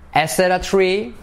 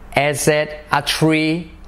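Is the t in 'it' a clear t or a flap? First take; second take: flap; clear t. First: The t in 'it' is a soft r-like flap. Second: The t in 'it' is a clear t.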